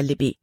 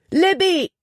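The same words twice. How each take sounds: First: Said in the usual way. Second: High, loud scream of the name; desperate scream. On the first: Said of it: "warnte er". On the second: Acted. Jordan screaming to Libby as the ice breaks. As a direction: scream her name over the roaring water. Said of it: "schrie Jordan".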